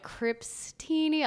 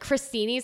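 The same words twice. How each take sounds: First: "Crepestini" stretched out, slow and higher, questioning; stretched pun. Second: Said in the usual way. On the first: Shown as a demonstration. Comedian testing a forced menu pun, "Crepestini" drawn out high. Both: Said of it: "I was going for a long stretch".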